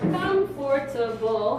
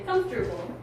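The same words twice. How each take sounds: First: The word is said with four syllables. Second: The word is said with three syllables. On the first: "Comfortable has four" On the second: "Some people say comfortable"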